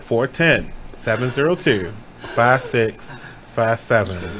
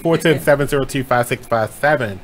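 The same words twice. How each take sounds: First: The number is said slowly. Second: The number is said quickly.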